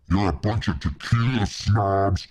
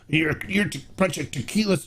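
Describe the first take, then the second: First: It is said in a put-on character voice. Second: It is said in a normal voice.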